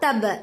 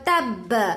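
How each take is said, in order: First: The final b has a shorter echoing bounce. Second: The final b has a longer, stronger echoing bounce. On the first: The letter has no doubling mark. "अगर लॉन्ग खलखला करना होता तो तब इस तरह से कर को मैं रुका देती" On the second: The letter carries a doubling mark. "लेकिन वह तब क्यों? क्योंकि यहाँ पर तशदीद है"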